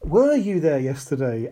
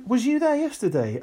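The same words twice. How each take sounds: First: "Were" drawn out and emphasised at the start; pointed correction, weight on "Were"; stress on Were. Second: High-pitched imitation of sloppy speakers; lifted voice mocking bad grammar; people's bad grammar. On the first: Shown as a demonstration. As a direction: correct them by leaning hard on "Were". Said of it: "we was." Oh my God. Right, right. We were". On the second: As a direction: mimic someone casually getting the grammar wrong, pitched high. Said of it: "But people go".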